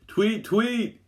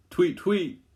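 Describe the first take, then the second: First: Much higher, louder urgent chirp; frantic bird call. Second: Much higher chirping tweet, louder; bird call. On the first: Louisa calls a bird frantically as a polar bear charges, much higher chirping. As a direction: chirp desperately like a bird in danger. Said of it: "she calls frantically". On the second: The girls call to a bird under the ice, high chirping. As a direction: chirp it like a little bird calling. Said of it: "the girls call out". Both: A narrator's reading.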